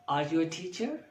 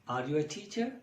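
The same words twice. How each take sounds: No difference in how they are said.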